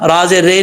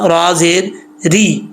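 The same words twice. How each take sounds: First: रा ज़ेर रे ending in an open "ray"; wrong "re" vowel. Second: रा ज़ेर री ending in a long "ree"; correct "ree" vowel. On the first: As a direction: spell it out with "रे" as the mistaken sound. (रा ज़ेर रे, गलत खुली आवाज़) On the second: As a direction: spell slowly, landing on a close "ee" in री. (रा ज़ेर री, लंबी ई के साथ) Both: Shown as a demonstration. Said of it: "रा ज़ेर रे नहीं होता".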